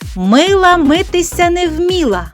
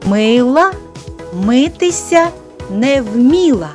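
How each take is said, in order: First: The phrase is spoken at the fastest pace. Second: The phrase is spoken at a moderate pace. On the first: "А тепер ще швидше" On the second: "повторюйте за мною"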